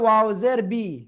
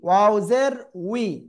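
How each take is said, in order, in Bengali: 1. শেষ অক্ষরটি 'b' ধ্বনি দিয়ে শুরু হয়। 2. শেষ অক্ষরটি 'w' ধ্বনি দিয়ে শুরু হয়। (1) "অনেকে বলতেছে ওয়াও জের বি, তো এটা বললে ভুল হবে" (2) "কি ওয়াও জের উই"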